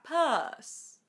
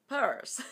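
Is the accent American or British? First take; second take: British; American. First: The R is silent and the vowel is long. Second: The R is pronounced after the vowel. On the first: "en inglés británico no se pronuncia la R. Recordad que se hace la vocal más larga" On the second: "En inglés americano sería purse"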